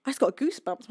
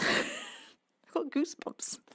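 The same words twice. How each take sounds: First: Said in the usual way. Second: Breathy giggle, half whispered; laughing whisper. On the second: Real, not acted. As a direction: laugh it out softly, almost whispering. Giggling at own goosebumps.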